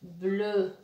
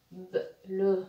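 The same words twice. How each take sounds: First: "bleu" said as one blended syllable. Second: "B, le" with a bare B, a gap, then "le"; split into sounds. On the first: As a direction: join B and L straight into "bleu". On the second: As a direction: break it apart as "B", pause, "le". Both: Shown as a demonstration. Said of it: "Le B fait seconde".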